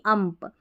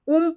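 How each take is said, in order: First: The vowel sounds like 'uh' in 'cup'. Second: The vowel sounds like 'oo' in 'book'. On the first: The speaker calls it right. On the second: The speaker calls it wrong. "उम्प नहीं"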